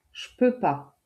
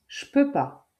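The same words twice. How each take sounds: First: "je" cut to a bare j glued to "peux", higher; casual spoken. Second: Said in the usual way. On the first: Shown as a demonstration. Teacher to learner, demoing casual jpeux pas. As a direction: jpeux pas, quick and lifted. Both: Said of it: "Un Français prononce".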